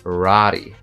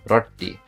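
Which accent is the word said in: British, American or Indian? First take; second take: American; Indian. First: It is said in an American accent. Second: It is said in an Indian accent. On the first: "I'm guessing in the American accent it'll be rari" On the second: "in the Indian accent, it would be roti"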